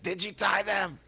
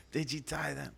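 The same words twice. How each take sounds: First: High-pitched teasing imitation; hammed-up catchphrase, pitched way up; mock outrage. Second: Softer, raised-pitch echo; toned-down mimicry. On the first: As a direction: squawk it like the upset cousin. Running catchphrase mimicking the cousin. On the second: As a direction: repeat the catchphrase under the first yell. Catchphrase repeated more quietly.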